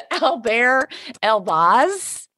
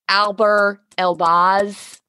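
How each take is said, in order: First: "Albert" said the French way, al-BEHR, no t; French pronunciation. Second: Albert with a hard English t; English pronunciation. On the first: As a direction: drop the t in "Albert", stress the end. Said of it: "Did I say it right?". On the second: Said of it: "I said it correctly". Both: Shown as a demonstration.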